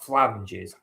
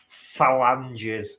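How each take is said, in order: First: The word is said with two syllables. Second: The word is said with three syllables. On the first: The speaker calls it wrong. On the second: The speaker calls it right.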